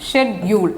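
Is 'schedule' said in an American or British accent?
British. It is said with a British pronunciation. "British இங்கிலீஷில் இந்த வார்த்தை... இதே போல் தான் சொல்கிறாங்க"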